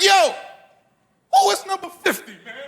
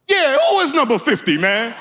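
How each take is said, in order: First: High-pitched outraged father in the stands; wilding-out dads. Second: High-pitched feigned outrage; playing along innocently. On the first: Acted. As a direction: heckle like a riled-up football dad. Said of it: "they started wilding out". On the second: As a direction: chime in as if it's not your kid. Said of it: "I tried to calm the fathers down".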